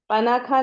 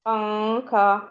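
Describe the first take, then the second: First: The n is fully articulated with the tongue. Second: The n is hidden as a nasal sound. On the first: The speaker calls it wrong. "कोई पनाखा नहीं बोलता है" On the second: The speaker calls it right. "जैसे बोलती हैं"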